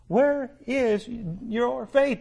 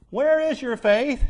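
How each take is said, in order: First: "Where is your faith?" drawn out very slowly, each word weighed; slow rebuking repeat. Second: Said in the usual way. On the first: Shown as a demonstration. Preacher echoing Jesus rebuking the disciples, slow and weighty. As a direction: let the rebuke sink in word by word. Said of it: "Jesus rebukes them for their response". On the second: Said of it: "And He said unto them".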